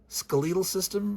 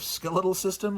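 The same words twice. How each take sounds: First: It is said with a British pronunciation. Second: It is said with an American pronunciation. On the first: "a Brit saying skeletal system" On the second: "instead of"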